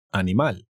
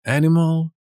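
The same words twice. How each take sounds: First: Animal in Spanish, open a's, animal; teacher gives Spanish Animal right after the English one; Spanish pronunciation. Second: Animal in English, higher and louder, ænɪməl; teacher contrasts English Animal with the Spanish, higher and louder; English pronunciation. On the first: Teacher gives the Spanish version. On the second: Teacher says the English word higher and louder. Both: Shown as a demonstration.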